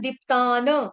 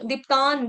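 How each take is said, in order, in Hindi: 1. अंतिम न पूरे स्वर के साथ बोला जाता है। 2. अंतिम न बिना स्वर के, आधा काटकर बोला जाता है। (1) "पूरा न बोलना है" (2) "गलती से, आधा न बोला जाता है"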